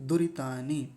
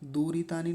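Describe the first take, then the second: First: The first vowel is short. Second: The first vowel is long. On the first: The speaker calls it right. "द पर छोटे ऊ की मात्रा है" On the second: The speaker calls it wrong. "इसको दूरी बना देते हैं यानी बड़े ऊ की मात्रा बना देते हैं। दूरितानी नहीं"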